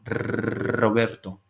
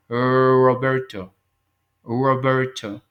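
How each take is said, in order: First: "Roberto" slow, with a long rolled trilled r; exaggerated Spanish r. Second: "Roberto" slow and louder with a curled English r. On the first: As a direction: roll the r in "Roberto" hard and slow. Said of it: "lo estoy exagerando". ("Roberto" con la erre española muy vibrada y lenta) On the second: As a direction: say "Roberto" the gringo way, slowly. ("Roberto" lento con la r inglesa curveada) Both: Shown as a demonstration.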